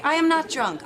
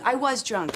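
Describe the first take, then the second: First: "am" lifted high in an indignant denial; stress on AM. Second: "was" punched as a concession; stress on WAS. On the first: Lisa correcting her accuser, stress on "am". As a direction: lean hard on "am" to deny it. Insisting present against past drunkenness. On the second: Lisa admitting earlier drinking, stress on "was". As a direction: lean on "was" to mark the past. Conceding past against present drunkenness. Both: Acted.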